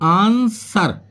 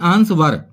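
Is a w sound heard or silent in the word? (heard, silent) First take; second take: silent; heard. First: The w sound is silent in the word. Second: A w sound is pronounced in the word. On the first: The speaker calls it right. "इसको बोलते हैं हम आंसर" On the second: The speaker calls it wrong. "ना कि आंसवर"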